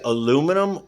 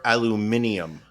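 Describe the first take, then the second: First: It is said with four syllables, ending -num. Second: It is said with five syllables, ending -nium. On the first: "Do you say"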